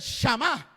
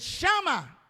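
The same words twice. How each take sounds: First: The stress is on the last syllable. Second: The stress is on the first syllable. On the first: Hearing with understanding. "el acento en la última A" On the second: The tangible presence of God. "sin acento"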